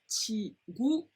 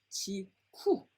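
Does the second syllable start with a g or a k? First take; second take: g; k. First: The second syllable starts with a voiced g sound. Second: The second syllable starts with a voiceless k sound. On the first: The speaker calls it right. "with the G sound" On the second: The speaker calls it wrong. "rather than chi ku"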